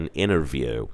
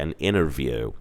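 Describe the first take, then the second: First: The T after the N is dropped. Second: The T after the N is dropped.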